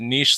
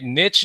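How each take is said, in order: First: The vowel is long, rhyming with sheesh. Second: The vowel is short, rhyming with itch. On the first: "niche like sheesh?" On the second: "Niche like itch"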